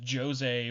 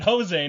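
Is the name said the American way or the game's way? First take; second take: game's way; American way. First: The name is said the game's way. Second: The name is said the American way. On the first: "in the game, Jose is pronounced Jose" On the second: "I am a I don't know stupid American... I pronounce it Jose"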